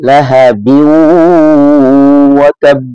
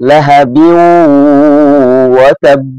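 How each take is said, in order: The two takes are said the same way.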